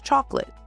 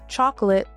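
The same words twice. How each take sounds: First: A middle syllable is dropped, shortening the word. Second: Every syllable of the word is fully pronounced.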